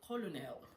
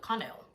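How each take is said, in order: First: The word is pronounced as it is spelled. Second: The word is not pronounced as it is spelled. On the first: The speaker calls it wrong. "pronounce it the way it is being spelled, you would make the mistake" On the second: The speaker calls it right. "instead of the colonel"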